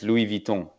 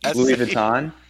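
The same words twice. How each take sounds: First: The name is said with French pronunciation. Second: The name is said with English pronunciation. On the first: "it's actually in French" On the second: "how did I say it?"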